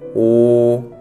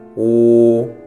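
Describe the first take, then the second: The two takes are said the same way.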